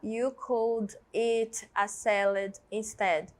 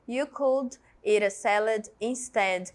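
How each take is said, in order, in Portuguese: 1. O T em 'eat' é claro, separado do 'a'. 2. O T em 'eat' é um flap ligado ao 'a'. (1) "Você pode falar You could eat a salad instead. Pode falar" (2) "na conversação, é muito normal que a gente vai emendando tudo"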